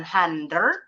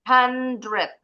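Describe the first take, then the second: First: HUNDRED misread as "han-der", rising at the end; salah ucap. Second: HUNDRED as "han-dred", r before the e; pelafalan benar. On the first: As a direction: say HUNDRED wrongly with the e before the r. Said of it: "Bukan hundred". (HUNDRED dibaca keliru "han-der") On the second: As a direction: say HUNDRED in spelling order, ending "dred". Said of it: "bacanya sesuai urutan hurufnya". (HUNDRED dibaca "han-dred", sesuai urutan huruf) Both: Shown as a demonstration.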